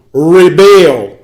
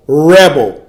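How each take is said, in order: First: Rebel said "ri-BEL", stress on the second syllable, louder; "rebel" with a short ri and a stressed BEL, like the verb. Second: Rebel said "REB-el", stress on the first syllable, slow; rebel as a noun. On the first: Preacher spelling out the word for his listeners, rebel said ri-BEL. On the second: Preacher contrasting the second reading of the word, rebel said REB-el. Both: Shown as a demonstration. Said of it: "Now, the word repel translates to".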